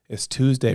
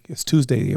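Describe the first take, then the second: First: It is said in a flat, resigned tone. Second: It is said in an upbeat, eager tone. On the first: Practice has become a routine chore. The speaker calls it wrong. "it becomes normal where you're walking into practice and you're like" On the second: The speaker is eager and confident about practice. The speaker calls it right. "Instead of being like"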